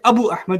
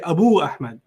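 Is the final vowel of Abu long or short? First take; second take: short; long. First: The final vowel of Abu is short. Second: The final vowel of Abu is long. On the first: The speaker calls it wrong. "you don't say" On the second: The speaker calls it right. "you say Abu Ahmed. Like, ooh"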